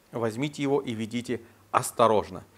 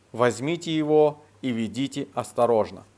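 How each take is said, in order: No difference in how they are said.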